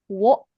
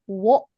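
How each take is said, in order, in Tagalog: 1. Nagsisimula ito sa tunog na w bago ang o. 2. Nagsisimula ito sa tunog na w bago ang o.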